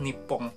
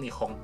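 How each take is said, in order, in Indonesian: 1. Konsonan di tengah itu p ganda yang keras. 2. Konsonan di tengah itu h yang lembut. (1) "memberi kesan kalau misalnya Jepang itu adalah negara yang kuat" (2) "dibuat jadi lebih halus"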